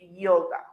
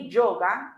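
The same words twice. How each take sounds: First: The word begins with a soft vowel-like Y sound. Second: The word begins with a hard J-like sound. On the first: The speaker calls it right. "in English we just pronounce it like a vowel" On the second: The speaker calls it wrong. "the one that we say yoga in Spanish ... we don't say yoga in English"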